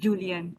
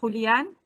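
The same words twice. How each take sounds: First: The name begins with an English J sound. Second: The name begins with a breathy H sound. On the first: This is an acceptable anglicized version of the name. "he wouldn't mind you calling him Julian also" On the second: This is the name as said in its own language. "J is uh, Jota in, in Spanish. So it's uh, really Julian"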